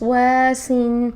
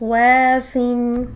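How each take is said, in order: First: ویسن drawn out very slowly; slow drill demo. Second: ویسن drawn out very slowly; ویسن with a clear w, very slow; slow drill demo. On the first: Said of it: "وس". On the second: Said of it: "اب اس کی مشق کرتے ہیں". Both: Shown as a demonstration. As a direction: stretch ویسن out syllable by syllable.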